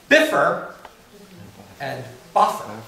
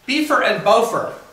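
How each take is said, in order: First: Bifur begins with a short 'i' vowel. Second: Bifur begins with a long 'ee' vowel. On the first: The speaker calls it right. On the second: The speaker calls it wrong.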